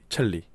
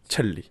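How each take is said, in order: First: The hissing consonant is swallowed and held inward. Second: The hissing consonant is sharp and pushed out. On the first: The speaker calls it right. "안으로 먹으면서 내는" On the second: The speaker calls it wrong. "첼리가 아니라"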